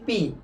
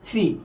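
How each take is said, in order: First: The p is unaspirated. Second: The p is strongly aspirated. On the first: The speaker calls it wrong. "কি উচ্চারণ করছি" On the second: The speaker calls it right. "এর সঠিক উচ্চারণ কি হবে বলতো ফি হবে"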